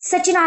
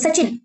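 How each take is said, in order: First: The name ends with a long na vowel. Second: The name ends on a short, clipped n. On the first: The speaker calls it wrong. "सचिना long उच्चार होतो" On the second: The speaker calls it right. "याचा उच्चार short होतो सचिन"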